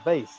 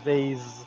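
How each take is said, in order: First: The word ends with an s sound. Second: The word ends with a z sound. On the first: The speaker calls it right. "Not even a Z sound. It's a vase" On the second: The speaker calls it wrong. "not a vase"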